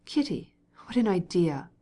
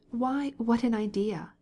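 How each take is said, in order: First: Reproachful. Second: Higher, slow, vexed outcry; indignant wife echoing her husband's words; vexed exclamation. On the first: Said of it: "he replied reproachfully". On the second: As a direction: throw it back at him, offended. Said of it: "she exclaimed, vexed". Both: A narrator's reading.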